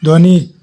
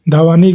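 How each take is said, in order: First: ध्वनि with dh and v fused, dhva-ni; joined consonants. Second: धवानी broken apart as dha-va-ni; split consonants. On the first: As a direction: say ध्वनि with no vowel between ध and व. (ध्वनि में ध और व मिलाकर बोलें) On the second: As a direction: say धवानी with a vowel between ध and व. (धवानी में ध और व अलग बोलें) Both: Shown as a demonstration. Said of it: "शब्द का संयुक्त रूप".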